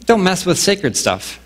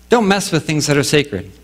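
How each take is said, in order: First: Don't mess with sacred stuff, slow with weight on don't; a solemn slow caution on don't; slow emphatic warning. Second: Said in the usual way. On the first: Shown as a demonstration. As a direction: lean slowly into don't like a stern warning. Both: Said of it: "the first part of it is".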